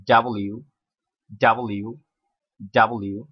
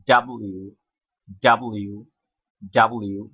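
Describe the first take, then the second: The two takes are said the same way.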